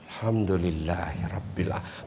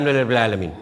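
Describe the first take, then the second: First: It is said slowly, clearly and with deep feeling. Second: It is said quickly and offhandedly, without feeling. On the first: The gratitude is truly felt. The speaker calls it right. "Sampai di hati itu" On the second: The gratitude is only a habit. The speaker calls it wrong. "jadi saja"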